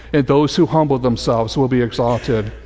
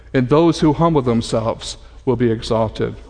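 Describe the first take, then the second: The two takes are said the same way.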